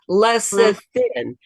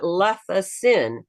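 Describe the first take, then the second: First: The second syllable starts with an s sound. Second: The second syllable starts with a th sound. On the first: The speaker calls it right. "It's lecithin" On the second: The speaker calls it wrong. "It's not lecithin"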